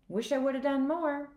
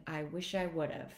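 First: Put-on regretful older self. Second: Said in the usual way. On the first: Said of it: "get to the end of my life thinking".

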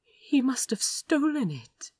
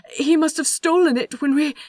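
First: Hushed, voiceless whisper; frightened bookseller whispering his guess. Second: Loud, high, rushing babble; flustered suspect pleading loudly to the boss; panicked outburst. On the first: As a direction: breathe it out barely audible. Frightened confession at the desk. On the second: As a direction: blurt it out in a panic. Panicked babbling under interrogation. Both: Acted.

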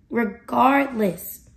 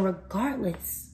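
First: "Regardless" stretched out very slowly; emphatic repeat. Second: Said in the usual way. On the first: Real, not acted. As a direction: draw out each syllable of "Regardless".

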